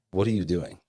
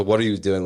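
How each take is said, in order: First: Said in the usual way. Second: "What are you doing?" louder and accusing, hit on "What". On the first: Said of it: "Which, which sounds like a question". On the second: Shown as a demonstration. Explaining the wicked son's challenge, said accusingly. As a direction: challenge them, don't ask. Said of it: "but there's a".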